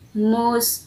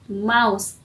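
First: The vowel is 'oo', rhyming with moose. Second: The vowel is 'ow', rhyming with house. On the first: It names the dessert. The speaker calls it right. "It is a chocolate mousse dessert" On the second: It names the small rodent rather than the dessert. The speaker calls it wrong. "it's not mouse"

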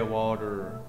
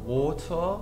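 First: It is said with an American accent. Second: It is said with a British accent. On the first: "in America they say" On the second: "in Britain they say"

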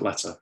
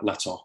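First: The word ends in a plain schwa vowel. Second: The word ends in a backed o-like vowel.

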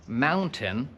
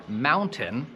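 Both takes have the same delivery.

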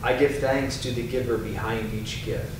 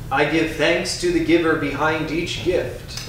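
First: It is spoken in a softer, quieter voice. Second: It is spoken in a strong, loud voice. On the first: "A little softer" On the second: "first in a strong voice"

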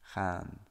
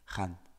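First: The vowel is long. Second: The vowel is short. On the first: The speaker calls it right. "and then with a long A" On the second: The speaker calls it wrong. "with a short A"

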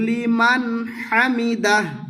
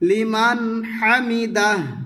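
Both takes have the same delivery.

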